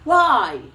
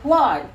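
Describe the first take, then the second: First: It is said expressively, with feeling. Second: It is said flatly, without expression.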